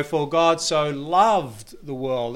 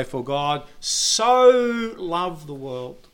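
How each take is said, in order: First: Slow, weight on "loved"; stress on LOVED. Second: Slow, lingering on "so"; stress on SO. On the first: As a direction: press on "loved" slowly. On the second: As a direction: draw out "so" and dwell on it. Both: Shown as a demonstration. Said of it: "And then you go".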